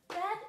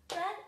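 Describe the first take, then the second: Both takes have the same delivery.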